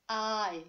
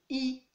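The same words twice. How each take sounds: First: English "eye" for the letter I. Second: French "ee" for the letter I. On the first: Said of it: "Alors qu'en anglais". (I anglais, « aïe ») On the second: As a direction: pronounce I as in French, "ee". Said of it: "En français, on dit I". (I français, « i ») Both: Shown as a demonstration.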